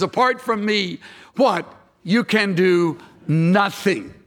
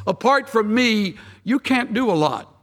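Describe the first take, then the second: First: "You can do nothing" slowed and weighted after the "what?" pause; the correct verse, delivered deliberately and with emphasis; stress on nothing. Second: A deliberately wrong paraphrase, lightly voiced; casual misquote, set up to be corrected; mock misquote. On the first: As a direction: let "nothing" land slowly as the true reading. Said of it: "It says". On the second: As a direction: say it as the watered-down misreading. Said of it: "No, not really. It doesn't say that at all". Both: Shown as a demonstration.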